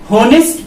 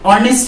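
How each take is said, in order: First: The word starts with an audible h sound. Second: The word starts with a vowel, no h. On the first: The speaker calls it wrong. "होनेस्ट पढ़ दिए तो ... उच्चारण भी गलत" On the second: The speaker calls it right. "इस word को ऑनेस्ट ना पढ़ के"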